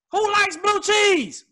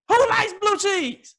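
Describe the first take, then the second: First: High, slow disbelief; incredulous. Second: High, slow disbelief, who leaned on; incredulous. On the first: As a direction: ask it like it's crazy. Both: Real, not acted. Incredulous repeat.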